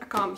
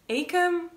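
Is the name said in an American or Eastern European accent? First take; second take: Eastern European; American. First: The name is said with an Eastern European accent. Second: The name is said with an American accent. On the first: "I tend to pronounce it like I would in my language" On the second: "American announcers are like Akam"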